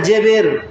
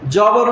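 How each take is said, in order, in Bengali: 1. প্রথম স্বরধ্বনিটি 'e' ধ্বনির দিকে সরে গেছে। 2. প্রথম স্বরধ্বনিটি একটি স্পষ্ট 'a' ধ্বনি। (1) "সে সব সময় যে জেবের করছে" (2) "জবর উচ্চারণ হয় না"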